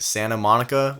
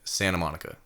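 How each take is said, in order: First: Each syllable is pronounced clearly and fully. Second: The syllables are rolled and slurred together. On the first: "instead of saying like" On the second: "we just be like Santa Monica... we just roll with our words"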